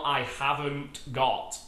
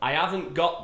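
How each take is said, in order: First: Each word is said fully and separately. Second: The words are reduced and run together. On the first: The speaker calls it wrong. "not I haven't got" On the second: The speaker calls it right. "but I haven't got the keys"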